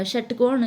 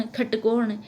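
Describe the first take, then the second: First: Said in the usual way. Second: खटकोण opening on aspirated kh. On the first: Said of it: "षटकोण का से का उच्चारण". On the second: Shown as a demonstration. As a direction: say खटकोण as khat-kon. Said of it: "खे की तरह होता है". (खटकोण, ष की जगह ख)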